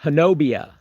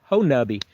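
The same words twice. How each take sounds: First: Honobia as huh-NO-bee-uh; as spelled. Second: Honubby as HO-nubby; local pronunciation. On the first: Streamer showing how Honobia looks like it should be said, spelling pronunciation. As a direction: stress the NO in Honobia, ending bee-uh. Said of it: "is the way it sound, looks like it should be said". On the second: Streamer correcting the spelled reading of Honubby, local pronunciation. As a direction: say Honubby in three syllables, ending like tubby. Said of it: "but it's pronounced Honubby". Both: Shown as a demonstration.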